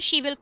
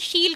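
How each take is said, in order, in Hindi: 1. इसे दो पूरे शब्दों के रूप में बोला जाता है। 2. इसे एक संक्षिप्त, एक अक्षर वाले रूप में बोला जाता है। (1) "she will को" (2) "she'll कर देंगे contract करके"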